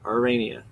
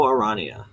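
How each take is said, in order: First: Arania as a-RAY-nia; ay pronunciation. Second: Arania as a-RAH-nia; ah pronunciation. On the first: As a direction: give Arania the vowel of "rain". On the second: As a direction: give Arania an open middle "ah". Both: Shown as a demonstration. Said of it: "I'm gonna go Arania".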